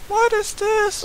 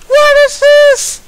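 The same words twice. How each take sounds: First: Said in the usual way. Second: Loud high slow outcry; stunned yell at the screen; shocked. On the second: Real, not acted. Shocked again by outfits.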